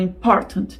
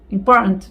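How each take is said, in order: First: The t comes with a sharp push of breath. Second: The t comes without a sharp push of breath. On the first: "com aquele soquinho no diafragma" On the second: "às vezes você vai ouvir"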